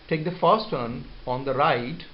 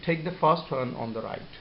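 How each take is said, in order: First: The pitch rises at the end. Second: The pitch falls at the end.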